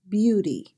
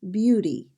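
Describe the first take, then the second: First: The middle consonant is a soft D sound. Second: The middle consonant is a soft D sound.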